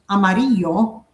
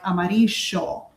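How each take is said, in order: First: The double L sounds like a Y. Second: The double L has the Argentine sound. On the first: "you say it like a Y" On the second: "like in Argentina they say more like amarillo"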